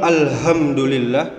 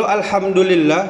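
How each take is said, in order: First: Alhamdulillah with a big, heavy H; wrong heavy H. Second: Alhamdulillah with a light H, pitched up; correct light H. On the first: Preacher shows the mistake that means destruction, wrong heavy H. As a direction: lean on a thick H in "ham" of alhamdulillah. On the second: Preacher models the word meaning all praise to Allah, correct light H. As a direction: say alhamdulillah higher, with a fine, unheavy H. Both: Shown as a demonstration. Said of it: "bukan pakai H yang besar".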